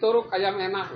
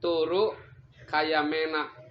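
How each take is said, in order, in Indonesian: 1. Kata-katanya menyambung cepat tanpa jeda. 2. Kata-katanya dipisahkan oleh jeda yang jelas. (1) "kalau macanya jadi terlalu cepat" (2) "harus ada koma"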